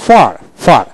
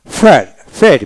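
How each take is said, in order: First: ফার with an open A in place of E; British pronunciation. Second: ফেয়ার with E vowel and sounded R; American pronunciation. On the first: Teacher shows British form to learners, open A in ফার. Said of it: "ব্রিটিশে". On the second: Teacher shows American form to learners, R ends ফেয়ার. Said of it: "আমেরিকানে". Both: Shown as a demonstration.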